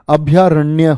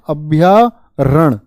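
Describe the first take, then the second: First: The word ends in a 'nya' sound. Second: The word ends in a plain 'n' sound. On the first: The speaker calls it right. "अभ्यारण्य होता है" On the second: The speaker calls it wrong. "अभ्यारण गलत है"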